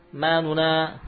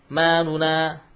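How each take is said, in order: The two takes are said the same way.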